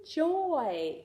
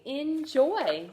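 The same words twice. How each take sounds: First: Enjoy drawn out; Enjoy said slowly as a blend. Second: Said in the usual way. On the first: Shown as a demonstration. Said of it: "E-, n-j-oy".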